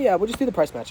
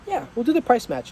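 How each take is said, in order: First: It sounds dismissive and careless. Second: It sounds warm and friendly.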